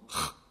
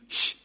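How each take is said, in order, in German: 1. Das ch ist ein rauer Laut hinten. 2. Das ch ist ein weicher Laut vorne. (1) "sondern Ch. ... das CH bei Dach oder Nacht" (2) "Nicht Ch"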